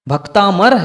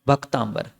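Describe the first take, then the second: First: The middle is said with a plain 'm' sound. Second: The middle is said with an added 'mb' sound. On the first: The speaker calls it right. "भक्तामर है" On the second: The speaker calls it wrong. "पर लिखा क्या है? भक्तांबर। शब्दाचार ही नहीं पता"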